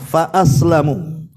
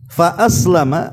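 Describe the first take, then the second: First: The word ends with a 'u' vowel. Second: The word ends with an 'a' vowel. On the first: The companion jinn remained an unbeliever. "tapi dibaca dhammah" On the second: "kalau dibaca fathah"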